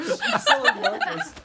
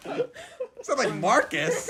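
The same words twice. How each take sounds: First: Squeaky high helium voice, slowed. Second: Said in the usual way. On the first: Real, not acted. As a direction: talk after breathing in helium. Helium just inhaled, laughing.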